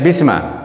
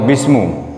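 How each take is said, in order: First: The word ends with an a vowel. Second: The word ends with a u vowel. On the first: "tidak bisma" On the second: "atau bismu, enggak"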